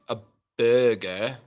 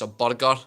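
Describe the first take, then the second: First: The R in burger is not rolled. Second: The R in burger is rolled. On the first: "instead of saying like a burger" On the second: "roll your R's as well"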